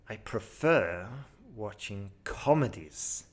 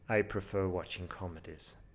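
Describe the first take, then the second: First: The important words are emphasized with varied intonation. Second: The sentence is said with flat intonation. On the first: The speaker calls it right. "High scoring answer. Just put in the emphasis on the important words" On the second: The speaker calls it wrong. "poor answer"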